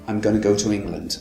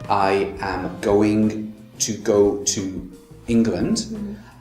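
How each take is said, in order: First: The words are run together quickly and connected. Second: Each word is said separately and distinctly. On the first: "in its fastest form" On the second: "how I pronounced it was all the words separate"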